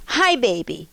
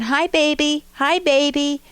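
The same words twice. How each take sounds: First: Hurt and angry. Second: Put-on a touch of frustrated toddler, a little louder. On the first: Retold or imitated. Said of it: "to hurt and anger". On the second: Toddler frustrated that the baby won't look, mild impatience. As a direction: push harder to get noticed. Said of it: "to frustration".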